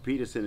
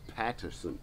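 First: The first vowel sounds like 'pet'. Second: The first vowel sounds like 'pat'. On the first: The speaker calls it wrong. "I'm actually saying that wrong. It's not Peterson" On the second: The speaker calls it right. "it's Patterson"

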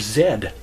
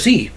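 First: The letter is said the Canadian way, 'zed'. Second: The letter is said the American way, 'zee'.

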